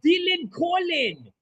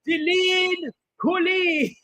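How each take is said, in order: First: The name is said with an Irish accent. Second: The name is said with a French accent. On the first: "now that sounds Irish" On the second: "He should have said it with like a French accent"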